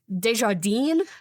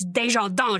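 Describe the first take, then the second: First: The name is read out as it is spelled. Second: The name is pronounced the French way. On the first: The speaker calls it wrong. "I always thought it was, um, Desjardins, and I, like, pronounced it wrong once" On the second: The speaker calls it right. "so it's Desjardins. She's French"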